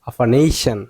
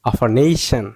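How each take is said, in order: The two takes are said the same way.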